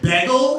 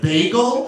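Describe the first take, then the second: First: It is said in a Philadelphia accent. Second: It is said in a standard accent. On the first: "They said" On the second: "instead of"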